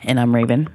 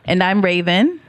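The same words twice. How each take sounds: First: The voice sounds flat and unenthusiastic. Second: The voice sounds cheerful and upbeat. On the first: The speaker calls it wrong. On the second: The speaker calls it right.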